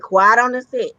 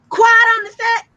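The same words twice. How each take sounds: First: It is said at normal volume. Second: It is yelled loudly.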